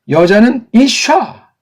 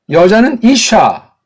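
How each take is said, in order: The two takes are said the same way.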